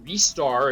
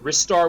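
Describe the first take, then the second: First: The first vowel sounds like a Japanese E. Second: The first vowel has an English-style sound. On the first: "if you pronounce it the Japanese way" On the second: "which I tend to call it"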